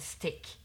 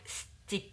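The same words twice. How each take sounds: First: The vowel is a short 'i' sound. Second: The vowel is a long 'ee' sound. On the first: The speaker calls it wrong. "rather than stick" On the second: The speaker calls it right. "try stick rather than stick"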